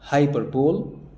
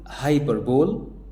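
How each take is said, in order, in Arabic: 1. تنتهي بمقطع واحد 'bowl'. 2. تنتهي بمقطع واحد 'bowl'.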